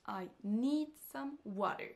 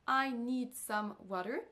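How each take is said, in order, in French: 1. Need et water sont accentués ; I et some sont réduits. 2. Les quatre mots ont à peu près le même accent. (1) "Il y a les deux mots need et water qui vont ressortir" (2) "cette phrase ne se prononce pas"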